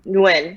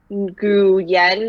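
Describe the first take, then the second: First: The name is said as one syllable. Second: The name is said as two syllables. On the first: It is said the Vietnamese way. "you just say it Nguyen, and that's it" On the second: It is read letter by letter from the spelling. "instead of saying like Gu Yen or whatever you would pronounce phonetically"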